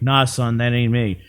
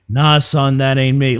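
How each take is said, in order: First: It is said at a normal, quieter volume. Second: It is said at a louder volume. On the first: The speaker calls it wrong. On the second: The speaker calls it right.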